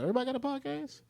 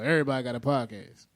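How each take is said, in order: First: The voice rises at the end, like a question. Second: The voice falls at the end, like a statement. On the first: It asks whether everyone has a podcast. "more like a question" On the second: It states that everyone has a podcast. "More like a like a statement"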